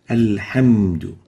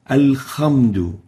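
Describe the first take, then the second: First: The second consonant is a smooth breathy h. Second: The second consonant is a rasping kh. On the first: The speaker calls it right. "We should pronounce the ha as a ha, like this" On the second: The speaker calls it wrong. "pronounce the ha with a kha"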